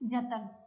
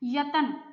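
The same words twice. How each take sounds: First: The word begins with a j sound. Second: The word begins with a y sound. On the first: This is the modern form of the word. "ਹੁਣ ਇਹ ਬਣ ਗਿਆ" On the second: This is the older form of the word. "ਪਹਿਲਾਂ ਸੀਗਾ"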